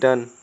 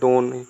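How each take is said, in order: First: The vowel is a short 'uh' sound. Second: The vowel is a long 'oh' sound. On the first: The speaker calls it right. "D ओ N E डन" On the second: The speaker calls it wrong. "Not डोन"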